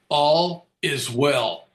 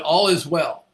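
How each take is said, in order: First: It is said very slowly. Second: It is said at a normal pace.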